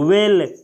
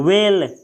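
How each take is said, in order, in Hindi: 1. यह शब्द सीधे W ध्वनि से शुरू होता है। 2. यह शब्द सीधे W ध्वनि से शुरू होता है।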